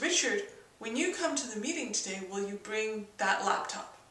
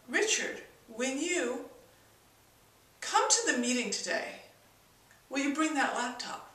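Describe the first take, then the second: First: It is said in a plain, ordinary tone. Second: It is said in an odd, abrupt tone. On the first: "the original way I said it" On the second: "that sound might sound really odd and very abrupt"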